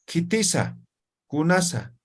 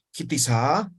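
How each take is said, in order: First: "Kitisa", "Kunasa" with no question rise, falling at the end; flat Aymara tune. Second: "Kitisa" with a Spanish questioning rise at the end; wrong question rise. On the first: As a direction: say "Kitisa" and "Kunasa" level, letting the end fall. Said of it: "No estoy entonando". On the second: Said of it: "Yo no digo". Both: Shown as a demonstration.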